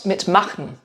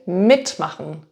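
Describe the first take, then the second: First: The stress is on the later part, machen. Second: The stress is on the first part, mit. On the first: The speaker calls it wrong. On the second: The speaker calls it right. "Notice how I'm stressing the prefix. So with the verb mitmachen, I'm saying"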